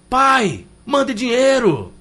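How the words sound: It is read in a harsh, demanding tone.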